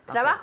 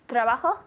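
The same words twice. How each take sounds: First: It sounds like the present tense form. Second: It sounds like the past tense form. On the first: The work happens now. The speaker calls it right. "In the present" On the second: The work happened in the past. The speaker calls it wrong. "that sounded like the past"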